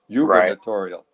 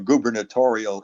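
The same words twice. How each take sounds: First: The first vowel sounds like 'you'. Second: The first vowel is a plain 'oo' sound.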